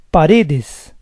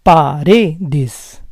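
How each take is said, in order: First: Said in the usual way. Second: Paredes split as pa-RE-des; syllable by syllable. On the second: Shown as a demonstration. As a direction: say Paredes in parts, stressing RE. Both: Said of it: "stress is on the second to last syllable".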